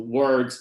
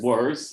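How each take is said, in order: First: Every consonant in the cluster is pronounced. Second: A consonant in the cluster is left out.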